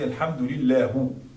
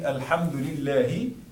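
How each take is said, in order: First: The word ends with a 'u' vowel. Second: The word ends with an 'i' vowel. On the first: The speaker calls it wrong. "This is wrong. Lahu, this is wrong" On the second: The speaker calls it right. "instead of saying"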